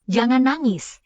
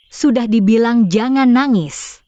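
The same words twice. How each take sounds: First: Said in the usual way. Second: Loud, exasperated scolding; yelling at a child. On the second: Acted. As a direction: raise your voice to scold the child. (membentak anak dengan suara keras) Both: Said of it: "Kenapa teriak-teriak ke anak?".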